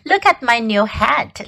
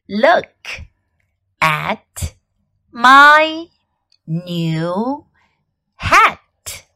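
First: It is said at normal speed. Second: It is said slowly.

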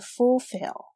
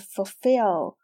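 First: The stress is on the first syllable. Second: The stress is on the second syllable. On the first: The speaker calls it wrong. "而不是fulfill" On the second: The speaker calls it right. "这个单词它的重音是放在后面的，是fulfill"

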